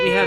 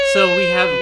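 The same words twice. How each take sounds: First: Said in the usual way. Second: Excited. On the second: Real, not acted. Excited podcast intro.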